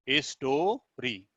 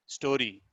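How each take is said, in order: First: story broken as स्टो, pause, री; split into syllables. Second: Said in the usual way. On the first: Shown as a demonstration. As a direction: stretch store, then a separate री. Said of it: "एक स्वर का उच्चारण होता है". (Story को स्टो-री में तोड़कर धीरे बोलना) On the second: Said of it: "दो स्वर का उच्चारण हो रहा है".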